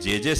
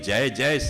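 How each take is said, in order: First: The word is said with a short 'e' vowel. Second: The word is said with a full 'ay' vowel. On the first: This is a corrupted form of the word. The speaker calls it wrong. "એ જે જે સાચો શબ્દ નથી" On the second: This is the original form of the word. The speaker calls it right. "જય જય સાચો શબ્દ છે"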